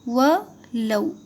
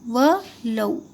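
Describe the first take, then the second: The two takes are said the same way.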